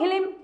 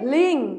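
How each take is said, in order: First: The syllable is said with an added vowel. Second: The syllable is said without an added vowel. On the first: The mantra addresses a malevolent spirit instead. The speaker calls it wrong. "এটা যদি হিলিম হয়ে যায় বা হালুম হয়ে যায় উচ্চারণে" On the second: The mantra addresses the goddess. The speaker calls it right. "এটা হলো বগলামুখীর বীজ মন্ত্র।"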